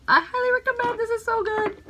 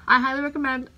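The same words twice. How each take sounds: First: Sing-song recommend. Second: Said in the usual way. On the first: Shown as a demonstration. Repeats recommendation much higher.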